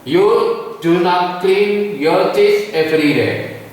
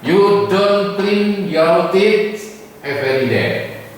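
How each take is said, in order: First: Do not is said as two full words. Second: Do not is contracted to don't. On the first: "dijelaskan ucapannya ben ketorong, ya, ben jelas, supaya jelas" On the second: "Dibaca don't bisa"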